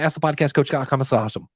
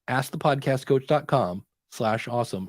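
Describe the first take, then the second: First: The address is rushed through quickly. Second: The address is said slowly and clearly. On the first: The speaker calls it wrong. "I hear everybody do this" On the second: The speaker calls it right. "you have to do it slowly and specifically"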